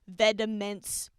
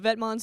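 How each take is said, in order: First: The name is said like vediments. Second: The name is said close to vet-monts. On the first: It is bent to fit the rhyme. The speaker calls it wrong. "but she says Vediments" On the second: This is the fashion house's own name. The speaker calls it right. "Vetmonts is a fashion house"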